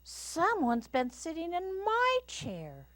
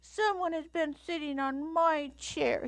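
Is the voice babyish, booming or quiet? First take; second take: quiet; babyish. First: It is said in a quiet Mama Bear voice. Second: It is said in a babyish Little Bear voice.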